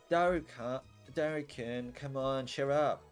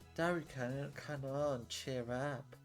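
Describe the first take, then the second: First: It is said in a louder voice. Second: It is said in a softer voice.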